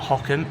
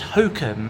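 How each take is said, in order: First: The first syllable sounds like 'hock'. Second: The first syllable sounds like 'hoke'. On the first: The speaker calls it wrong. "I keep pronouncing it as Hockham. It's not Hockham" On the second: The speaker calls it right. "it's Hokum"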